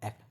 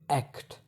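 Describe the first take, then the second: First: Said quickly, with the T left out. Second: Said slowly, with the T clearly pronounced. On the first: "if I go fastly" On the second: "In slow speech, the T may be fully pronounced"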